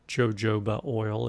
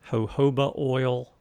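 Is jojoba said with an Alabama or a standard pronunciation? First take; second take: Alabama; standard. First: Jojoba is said with an Alabama pronunciation. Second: Jojoba is said with a standard pronunciation.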